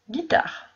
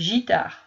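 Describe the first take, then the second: First: The word begins with a hard G sound. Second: The word begins with a soft J sound. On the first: The speaker calls it right. "Le U vient aider la lettre G pour faire le son G" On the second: The speaker calls it wrong. "ça ne fait pas guitare. Ça fait gitare ... ça fait J"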